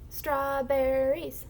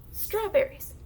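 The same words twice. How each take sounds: First: Strawberries with every syllable stretched out; slowly blended. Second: Strawberries quick and higher, falling; fast blend. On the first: Teacher blends syllables for the class, slowly blended. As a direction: draw Strawberries out slowly, joined up. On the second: Teacher shows moving the arm faster, fast blend. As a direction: say Strawberries briskly as one word. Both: Shown as a demonstration. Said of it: "the faster you say it".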